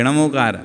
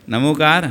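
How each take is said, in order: First: नमोकार with a retroflex ṇ at the start. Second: नमोकार with a plain dental n. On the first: Teacher asking devotees which form they use, retroflex ṇa. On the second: Teacher asking devotees which form they use, dental na. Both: Shown as a demonstration. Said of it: "कि नमोकार?".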